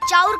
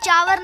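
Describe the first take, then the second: First: The word ends with an 'ur' sound. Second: The word ends with a 'var' sound. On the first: The speaker calls it right. "चाउर कहल जाला" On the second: The speaker calls it wrong. "Bhojpuri में के चावर ना"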